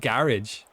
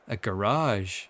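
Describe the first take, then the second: First: It is said with an Irish accent. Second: It is said with an American accent. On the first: This is the usual local way of saying it. The speaker calls it right. "You mean a" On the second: Someone picked it up from watching videos. The speaker calls it wrong. "a couple of words just come out in an American accent"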